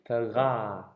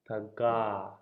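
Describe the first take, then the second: Both takes have the same delivery.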